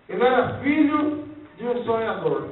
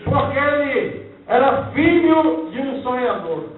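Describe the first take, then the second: First: Said in the usual way. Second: "filho" stressed, said louder; emphatic. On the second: Shown as a demonstration. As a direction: lean hard on "filho". (ênfase forte em "filho")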